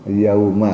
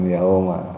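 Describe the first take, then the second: First: The first vowel sounds like 'au'. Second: The first vowel sounds like 'o'. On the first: The speaker calls it right. "Yauma ya" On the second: The speaker calls it wrong. "bukan yauma"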